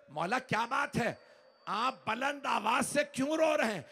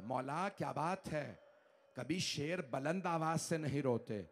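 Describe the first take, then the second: First: Raised question. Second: Soft, lower, hushed question. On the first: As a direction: call the question out in alarm. Fizza asks loudly. (ऊँची आवाज़ में बेचैन सवाल) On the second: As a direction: ask it quietly, almost afraid. Fizza asks again, hushed. (धीमी, दबी आवाज़ में सवाल) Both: Acted.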